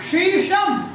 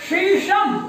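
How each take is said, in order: No difference in how they are said.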